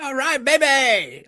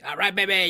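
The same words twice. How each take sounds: First: Put-on high, slow, drawn-out "all right, baby"; drawn-out hyped "all right, baby"; slow hype call. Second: Said in the usual way. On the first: Shown as a demonstration. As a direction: stretch "baby" like a hype man. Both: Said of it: "You gotta cheer".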